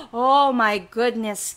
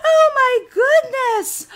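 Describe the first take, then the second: First: Said in the usual way. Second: High, drawn-out dismayed cry; high-pitched exasperated outburst; frantic dismay. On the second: Acted. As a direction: wail it high and slow. End of princess's outburst.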